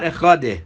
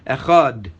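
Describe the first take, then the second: First: The word ends with an extra vowel after d. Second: The word ends cleanly on the d sound. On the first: The speaker calls it wrong. "it actually comes out as a di. That's wrong" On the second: The speaker calls it right. "It's a dalid, not a"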